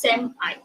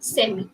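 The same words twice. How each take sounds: First: The word ends with an 'eye' sound. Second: The word ends with an 'ee' sound. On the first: "In America, they do pronounce it as semi, sem-I" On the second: "That is actually the British pronunciation"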